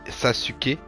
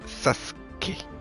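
First: The middle u sound is clearly pronounced. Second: The middle u sound is dropped, silent. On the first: The speaker calls it wrong. "on dit pas Sasuke" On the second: The speaker calls it right. "On dit Sasuke"

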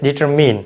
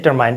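First: The last syllable rhymes with 'pin'. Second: The last syllable rhymes with 'mine'. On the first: The speaker calls it right. "The correct pronunciation of this word is ডিটারমিন" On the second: The speaker calls it wrong. "You say ডিটারমাইন"

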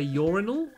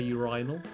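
First: The word is said the American way. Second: The word is said the British way. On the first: "in America you say urinal" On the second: "in England we say urinal"

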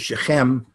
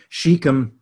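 First: The name has a non-American pronunciation. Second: The name has an American pronunciation.

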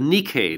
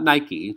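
First: The word is pronounced the Greek way. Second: The word is pronounced like the shoe brand. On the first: It names the Greek word for victory. The speaker calls it right. "The Nike, not Nike. Nike is the Greek word for victory" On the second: It names the tennis shoe brand. The speaker calls it wrong. "Nike is the tennis shoe that you wear"

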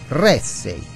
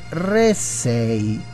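First: The stress is on the first syllable. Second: The stress is on the second syllable. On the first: The speaker calls it right. "Accento sulla prima E" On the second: The speaker calls it wrong. "ho sbagliato accento"

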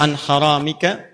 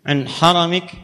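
First: The word ends with a pronounced final vowel. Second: The word ends without its final vowel.

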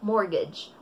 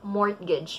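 First: The t sound is silent in the word. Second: The t sound is pronounced in the word. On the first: The speaker calls it right. "silent T siya. We have to say mortgage" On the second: The speaker calls it wrong. "Hindi natin sasabihin mortgage. Mali yun"

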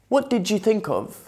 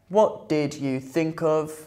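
First: Did and you merge into a J sound. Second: Did and you are pronounced as separate words.

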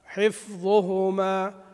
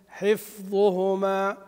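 No difference in how they are said.

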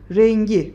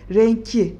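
First: The consonant before the final vowel is voiced g. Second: The consonant before the final vowel is voiceless k. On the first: The speaker calls it right. "K yumuşayacak. Rengi olacak" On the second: The speaker calls it wrong. "Renki demeyeceğiz"

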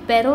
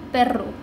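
First: The r is a single short tap. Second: The r is a long rolled trill. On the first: The speaker calls it wrong. "पेरो नहीं" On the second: The speaker calls it right. "Double आर O रो"

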